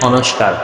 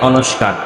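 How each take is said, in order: Both takes have the same delivery.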